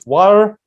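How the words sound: It is said in an American accent. "American English water"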